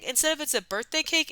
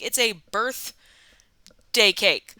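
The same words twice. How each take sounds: First: Said in the usual way. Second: "it's a birthday cake" slowed right down, leaning hard on "a"; stress on a. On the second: Shown as a demonstration. Correcting the audience, stress on "a" in "it's a birthday cake".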